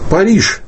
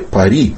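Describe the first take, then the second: First: The name ends with a zh sound. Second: The name ends with a vowel. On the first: This is the established historical form. "мы произносим и пишем «Париж»" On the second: This is the form transcription rules would give. "а не «Пари», как опять-таки следовало бы"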